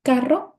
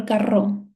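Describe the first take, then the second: First: "Carro" stressed on CA, rising as a question; stress on first syllable. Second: "carro" stressed on its final RRO; stress on last syllable. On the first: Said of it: "Ka is my stressed syllable". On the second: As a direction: push the stress to the end of "carro". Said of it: "Which one is my". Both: Shown as a demonstration.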